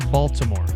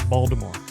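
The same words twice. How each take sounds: First: The first syllable sounds like 'bal'. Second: The first syllable sounds like 'bald'. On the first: Locals would correct this. The speaker calls it wrong. "Don't say Baltimore. They'll correct you" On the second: This is how locals say it. The speaker calls it right. "It's actually pronounced Baltimore. ... almost think like bald head"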